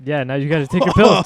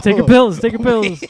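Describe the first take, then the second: First: Said in the usual way. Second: Louder, higher nagging; insistent. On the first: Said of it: "repeated pill order". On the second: Acted. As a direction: nag loudly.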